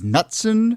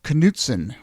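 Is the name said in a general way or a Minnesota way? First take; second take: general; Minnesota. First: The name is said in a general way. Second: The name is said in a Minnesota way. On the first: The speaker calls it wrong. "I had pronounced that incorrectly" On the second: The speaker calls it right. "a very Minnesota way of pronouncing it"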